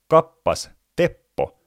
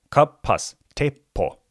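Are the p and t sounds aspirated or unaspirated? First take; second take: unaspirated; aspirated. First: The p and t sounds have no breath puff. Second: The p and t sounds have a breath puff. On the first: This is how a native speaker says it. The speaker calls it right. "suomen natiivipuhuja sanoo" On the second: This is how a non-native speaker says it. The speaker calls it wrong. "eikä"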